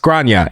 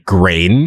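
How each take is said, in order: First: The name is said with its Irish pronunciation. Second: The name is read with English spelling rules. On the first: The speaker calls it right. "it's pronounced Grania and is Irish" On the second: The speaker calls it wrong. "if I read this with American English phonetics"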